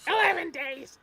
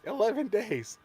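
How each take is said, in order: First: Very high kobold shriek; squeaky yappy lizard chatter. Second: High squeaky kobold yap; squeaky yappy lizard chatter. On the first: Echoing the kobold bit. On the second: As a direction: chirp it like a tiny lizard. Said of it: "my kobold voice". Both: Acted.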